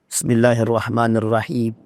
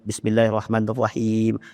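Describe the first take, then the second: First: It is recited with a rich, varied melody. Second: It is recited flatly, with little melody. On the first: This is the pleasing style of a famous reciter. The speaker calls it right. "Kata Abdurrahman As-Sudais" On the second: This is a plain reading that listeners dislike. The speaker calls it wrong. "ada orang yang baca cuma lurus saja"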